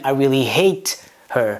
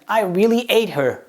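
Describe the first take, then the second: First: The word starts with a clear h sound. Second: The word starts with no h sound. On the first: It expresses strong dislike of the person. The speaker calls it right. "As opposed to" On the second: It sounds like eating the person. The speaker calls it wrong. "We simply don't pronounce any H's in the beginning of a word"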